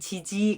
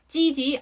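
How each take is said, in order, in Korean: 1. 첫 자음은 부드러운 예사소리예요. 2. 첫 자음은 세고 된소리예요. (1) "지지 그거 아니고" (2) "아니고 찌지"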